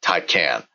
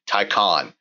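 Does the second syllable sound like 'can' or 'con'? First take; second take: can; con. First: The second syllable sounds like 'can'. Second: The second syllable sounds like 'con'. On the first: The speaker calls it wrong. "not Taycan" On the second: The speaker calls it right. "the correct pronunciation will be Taycan, as in as if it was spelled T-A-Y-C-O-N"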